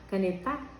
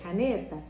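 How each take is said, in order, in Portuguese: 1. O acento está na última sílaba. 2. O acento está na sílaba do meio. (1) "O tá" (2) "o ne"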